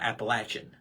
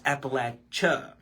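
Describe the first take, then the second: First: The word ends with an N sound. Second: The word ends without an N sound. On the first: The speaker calls it wrong. "Not with the N" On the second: The speaker calls it right. "it's Appalachia"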